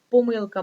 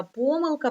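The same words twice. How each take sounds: First: Помилка stressed on МИЛ; stress on second syllable. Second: Помилка stressed on ПО, pitched high; stress on first syllable. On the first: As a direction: lean on the middle syllable of помилка. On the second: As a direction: lean on the opening syllable of помилка. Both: Shown as a demonstration. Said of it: "може наголошуватися так".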